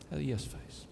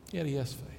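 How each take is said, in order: First: Much softer, almost to himself; soft echo. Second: Said in the usual way. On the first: Shown as a demonstration. Pastor savoring the punchline for the church, softly echoed. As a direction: let it fade as you savor the line.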